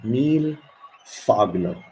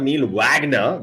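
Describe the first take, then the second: First: The surname begins with an F sound. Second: The surname begins with a W sound. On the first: The speaker calls it right. "we ought to owe his name a fur, not a word" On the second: The speaker calls it wrong. "That's like that's a scummy pronunciation"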